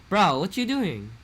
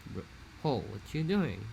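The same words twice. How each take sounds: First: Higher, louder, slow Hawaiian Pidgin "Bro, what you doing?"; old-generation Pidgin, forceful; aggressive old Pidgin. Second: Slow, hazy Hawaiian Pidgin "Bro, oh, what you doing?"; new-generation Pidgin, soft and drawn out. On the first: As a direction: hit it hard like a traditional Hawaii man. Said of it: "before it was more like". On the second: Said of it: "now it's more like". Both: Shown as a demonstration.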